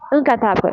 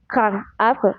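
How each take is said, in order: First: The words are joined with a T sound. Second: The words are said without a linking T sound. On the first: The speaker calls it right. "se prononce comme un T" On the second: The speaker calls it wrong. "on ne dit pas"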